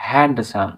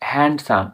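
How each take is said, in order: No difference in how they are said.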